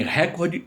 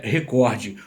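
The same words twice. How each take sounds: First: "recorde" mispronounced as RÉ-cor-de; front-stressed "recorde", open e in RÉ; stress on first syllable. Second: "recorde" as re-COR-de; stress on middle syllable. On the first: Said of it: "está errado". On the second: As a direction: put the weight on COR in "recorde". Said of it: "O certo é". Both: Shown as a demonstration.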